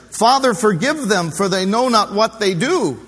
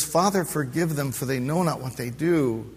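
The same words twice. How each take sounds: First: Higher, louder, pleading plea; loud pleading prayer. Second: Soft, tender plea at normal pitch; quiet gentle prayer. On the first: Preacher voicing Jesus forgiving the jeering crowd, loud pleading. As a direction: lift it as a fervent cry for mercy. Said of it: "his expression". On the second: Preacher voicing Jesus forgiving the crowd, soft tender prayer. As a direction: say it gently, almost to himself. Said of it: "And he says". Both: Acted.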